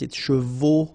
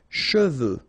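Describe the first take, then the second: First: The final vowel sounds like an 'o'. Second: The final vowel sounds like a rounded 'eu'. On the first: The speaker calls it wrong. "some of the students normally pronounce it chevaux" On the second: The speaker calls it right. "you've got E, U here"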